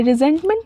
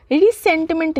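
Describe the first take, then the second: First: रिजेंटमेंट with a voiced Z sound; correct pronunciation. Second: रिसेंटमेंट with an S sound in the middle; wrong pronunciation. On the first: Teacher telling students how to read it, रिजेंटमेंट said with Z. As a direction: say रिजेंटमेंट with Z, not S, in the middle. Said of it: "हमें रिजेंटमेंट पढ़ना है". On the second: Teacher showing students the misreading, रिसेंटमेंट said with S. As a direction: say रिसेंटमेंट with a hissed S, not Z. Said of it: "नहीं इसको पढ़ना है". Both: Shown as a demonstration.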